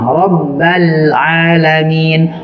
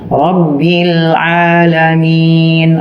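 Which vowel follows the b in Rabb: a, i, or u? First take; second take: a; i. First: The b is followed by an a vowel. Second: The b is followed by an i vowel. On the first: The speaker calls it wrong. "Kita baca ba-nya berharokat kasroh atau dhammah" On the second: The speaker calls it right. "Aslinya begitu, tulisannya kasroh"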